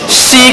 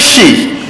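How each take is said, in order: First: The consonant is a plain s sound. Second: The consonant is a hissing sh sound. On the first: The speaker calls it wrong. "Masih ada lagi pembaca kadang-kadang baca si" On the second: The speaker calls it right. "shin sembok betul-betul"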